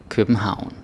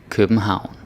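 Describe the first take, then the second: The two takes are said the same way.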